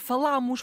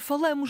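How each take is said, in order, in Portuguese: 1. A vogal a tónica é aberta. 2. A vogal a tónica é fechada. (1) "o acento está lá para abrir o A" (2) "nunca pode ser falamos"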